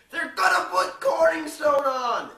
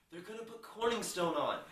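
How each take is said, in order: First: Much higher, much louder, drawn-out shout; slow furious yell. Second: Raised, louder outburst; excited announcement. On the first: Ron yelling the news at everyone, slow and much louder. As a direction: scream it slowly across the office. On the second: Ron to the newsroom, raised and excited. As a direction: blurt out the shocking news. Ron hears Corningstone will anchor. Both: Retold or imitated.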